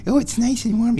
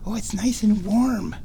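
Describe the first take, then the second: First: High, louder coo on oh. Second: High cooing voice on warm. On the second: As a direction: coo it to the kitty. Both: Real, not acted. Baby talk to the cat.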